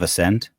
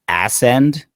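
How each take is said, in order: First: It is said as the ordinary word 'ascend'. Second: It is said like two words, 'ass end'. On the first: "instead of ascend" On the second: "Did you just say ascend instead of"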